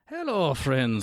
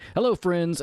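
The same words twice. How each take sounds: First: It is said in an Irish accent. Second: It is said in an American accent.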